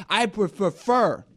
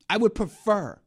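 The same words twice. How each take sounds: First: Slow, with prefer drawn out; stress on prefer. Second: Would punched, prefer light; stress on would. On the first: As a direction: lean hard on prefer, slowly. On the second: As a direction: hit would, not prefer. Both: Shown as a demonstration.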